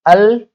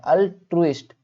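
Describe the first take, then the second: First: अल्ट्रुइस्ट opened on a loud, higher "al", then gaps before tru and ist; syllable-by-syllable. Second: Said in the usual way. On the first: Shown as a demonstration. Teacher introduces a word to pronounce, अल्ट्रुइस्ट loudly broken up. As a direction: punch "al" in अल्ट्रुइस्ट and split the rest. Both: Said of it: "pronounce भी करना सीखना".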